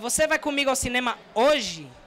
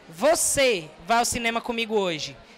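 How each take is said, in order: First: The emphasis falls on the word hoje. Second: The emphasis falls on the word você. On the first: It happens today, not tomorrow. "porque é hoje, não é amanhã" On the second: It is this person, not someone else, who goes. "Não é outra pessoa, não. É você que vai"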